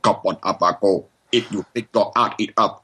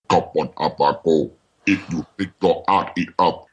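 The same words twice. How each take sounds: First: The phrase is said at a normal speed. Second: The phrase is said slowly, drawn out. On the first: "I just did it in a funny voice" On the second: "and then I slowed it down"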